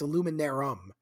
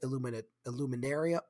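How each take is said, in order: First: No 'ee' sound comes before the final 'um'. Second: An 'ee' sound comes before the final 'um'. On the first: The speaker calls it right. "It's Illuminarum" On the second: The speaker calls it wrong. "It's not Illuminarium"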